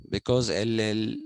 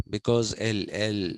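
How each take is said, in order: Both takes have the same delivery.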